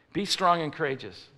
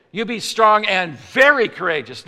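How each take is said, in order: First: Said in the usual way. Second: Louder, higher command with "very" punched; stress on very. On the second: Shown as a demonstration. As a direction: step up the order, hitting "very" hard. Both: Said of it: "He's stepping it up".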